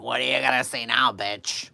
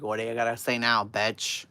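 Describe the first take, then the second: First: Put-on loud, sloppy drunken taunt; drunk mother taunting. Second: Put-on loud, fast drunken taunt; drunk mother taunting. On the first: Drunk mother taunting the neighbor across the street, slurred and loud. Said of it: "All drunk as a skunk". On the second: Drunk mother repeating her taunt at the neighbor, loud and fast. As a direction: throw the insult again, sloppy. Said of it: "My mother's like".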